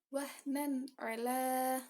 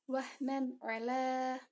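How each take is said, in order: No difference in how they are said.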